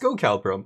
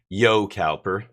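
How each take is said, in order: First: The name begins with a hard G sound. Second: The name begins with a Y sound. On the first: The speaker calls it wrong. "It was a G before" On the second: The speaker calls it right. "silent G turns into Y apparently"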